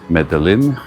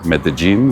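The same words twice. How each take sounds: First: The name is pronounced in a non-local way. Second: The name is pronounced the way locals say it.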